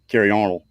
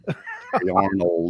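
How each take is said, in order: First: The words run together and sound slurred. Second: Each word is clearly and separately pronounced. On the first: The speaker calls it wrong. "didn't roll on out like it should have" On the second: The speaker calls it right. "I had to enunciate"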